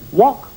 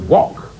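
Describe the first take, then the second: First: The pitch rises at the end like a question. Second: The pitch falls at the end like a statement. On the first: The speaker is unsure of the answer. "Notice there wasn't a query in his voice. He didn't say" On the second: The speaker is confident in the answer. "It was wok"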